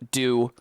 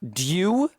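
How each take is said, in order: First: It begins with a plain d sound. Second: It begins with a d followed by y. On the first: "the y has just been removed" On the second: "a du"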